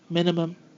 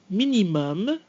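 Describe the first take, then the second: First: English pronunciation, with the final M cut short. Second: French pronunciation, with the final M fully held. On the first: "how we say these words in English" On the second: "I'm going to read the French version of these words"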